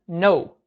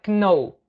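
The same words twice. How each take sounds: First: The word starts with an N sound. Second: The word starts with a K sound. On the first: The speaker calls it right. "Esse K na pronúncia some, tá? Só fica know" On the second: The speaker calls it wrong. "Não é know"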